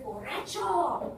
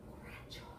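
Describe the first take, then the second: First: Calling out. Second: Eerie unvoiced whisper; old lady. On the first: Acted. Unseen voice calls to drunk. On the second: Old lady pointing at the drunk, whispering. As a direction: whisper it as a quiet accusation. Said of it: "it's like an old lady's pointing at him".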